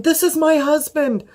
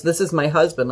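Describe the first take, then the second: First: High-pitched, near-shrieking correction; panicked retort. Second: Said in the usual way. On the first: Retold or imitated. Correcting the paramedic about her husband, panicked and high. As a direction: blurt it out in a flat-out panic. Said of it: "I'm in a flat out panic". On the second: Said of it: "It was just".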